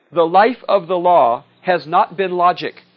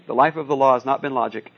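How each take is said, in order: First: Slow, louder courtroom declaiming; grand pronouncement. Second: Said in the usual way. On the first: Acted. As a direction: proclaim it slowly like a lawyer in court. Snoopy lawyer quote, declaimed slowly.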